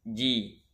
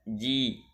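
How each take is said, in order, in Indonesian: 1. Konsonannya j keras dan bersuara. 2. Konsonannya j keras dan bersuara.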